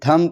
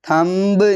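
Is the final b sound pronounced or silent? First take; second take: silent; pronounced. First: The final b sound is silent. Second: The final b sound is pronounced. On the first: The speaker calls it right. "थम पढ़ते हैं" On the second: The speaker calls it wrong. "थंब नहीं पढ़ते"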